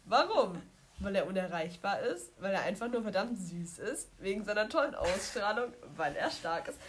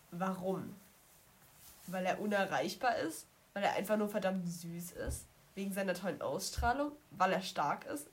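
No difference in how they are said.

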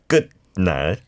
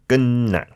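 First: The first syllable keeps its written final consonant. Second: The first syllable ends in an n sound. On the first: The speaker calls it wrong. "Not how it's spelled" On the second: The speaker calls it right. "but 끝날"

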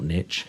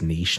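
First: The word is said with an American pronunciation. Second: The word is said with a British pronunciation. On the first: The speaker calls it wrong. "for American listeners ... not niche" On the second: The speaker calls it right. "I'm afraid it is niche"

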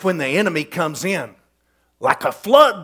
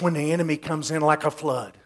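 First: There is a pause before 'like a flood'. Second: It runs on without a pause before 'like'. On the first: The Spirit of the Lord comes like a flood against the enemy. "There's no punctuation in the Hebrew. We added that" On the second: The enemy is the one coming like a flood. "we always read it like this"

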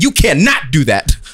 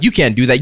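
First: It is said angrily, without a contraction. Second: It is said calmly, with a contraction. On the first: The speaker is seriously upset. "everything sounds more angry when you don't use contractions" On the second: The speaker is only mildly upset. "Anybody who uses contractions is not angry"

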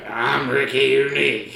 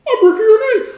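First: It is said in a raspy smoker's voice. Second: It is said in a high Mickey Mouse voice.

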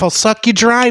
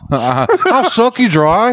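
First: It is said in the speaker's plain accent. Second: It is said in a put-on British-style accent. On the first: The speaker calls it wrong. "so I'm doing it wrong" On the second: The speaker calls it right. "I gotta add a British accent to that"

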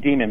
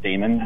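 First: The first vowel sounds like 'dee'. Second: The first vowel sounds like 'day'. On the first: This is the pronunciation the author intended. The speaker calls it right. "he meant it to be demon" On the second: This is the common American pronunciation. The speaker calls it wrong. "Americans often pronounce it Damon"

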